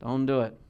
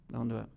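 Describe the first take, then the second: First: Said in the usual way. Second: Softer repeat. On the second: Real, not acted. Preacher repeats warning to congregation.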